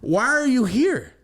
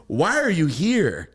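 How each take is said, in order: First: Pitched way up and louder, drawn out; exaggerated baffled "Why are you here?"; high loud slow question. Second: Blunt question. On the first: To the grown man at grandma's, a high drawn-out "Why are you here?". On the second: Retold or imitated. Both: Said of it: "And I said it to him like that".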